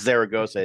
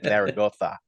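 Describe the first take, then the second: First: It is said with a Mexican Spanish accent. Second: It is said with a Spain Spanish accent. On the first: The speaker calls it wrong. "it's not" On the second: The speaker calls it right.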